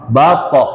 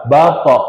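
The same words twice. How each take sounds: The two takes are said the same way.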